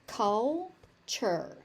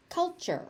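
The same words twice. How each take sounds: First: "Culture" split as cul... chur; syllable by syllable. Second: Said in the usual way. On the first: Shown as a demonstration. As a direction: pause before the second syllable of "Culture". Teacher breaks word into syllables.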